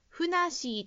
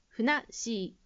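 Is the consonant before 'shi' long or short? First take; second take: short; long. First: The 'sh' consonant is short, without a held pause. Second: The 'sh' consonant is long, with a held pause. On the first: The speaker calls it wrong. "ふなっしーと聞こえたので、小さいつを忘れずに発音しましょう" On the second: The speaker calls it right. "小さいつを忘れずに発音しましょう"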